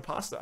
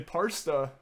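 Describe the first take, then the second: First: Said in the usual way. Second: Parsta, an R added after the first a; R-coloured pasta. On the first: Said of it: "instead of pasta". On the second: Shown as a demonstration. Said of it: "Say parsta instead of pasta".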